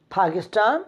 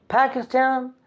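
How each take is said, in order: First: "Pakistan" said "pa-kis-tan", open a as in father; Pakistan with a broad a. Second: "Pakistan" in a British accent, first a flat like in cat; British pronunciation. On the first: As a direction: give "Pakistan" the local open a vowel. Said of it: "we say". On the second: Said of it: "British people say it like this". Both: Shown as a demonstration.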